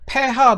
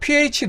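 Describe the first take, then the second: First: It is said as 'pe-ha'. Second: It is said as 'pee-aitch'. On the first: "독일어식 발음으로 발음을 하면 폐하가 돼서" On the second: "pH 농도라고 안 하고"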